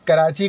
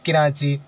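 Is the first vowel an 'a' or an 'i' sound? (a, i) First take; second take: a; i. First: The first vowel is an 'a' sound. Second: The first vowel is an 'i' sound. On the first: The speaker calls it right. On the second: The speaker calls it wrong.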